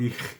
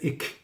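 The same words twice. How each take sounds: First: It ends in a soft hissing sound. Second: It ends in a hard k sound.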